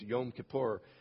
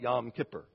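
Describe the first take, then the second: First: It is said with a Hebrew pronunciation. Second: It is said with an American pronunciation.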